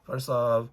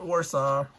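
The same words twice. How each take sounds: First: The word begins with a V sound. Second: The word begins with a W sound. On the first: The speaker calls it right. "the W is V" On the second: The speaker calls it wrong.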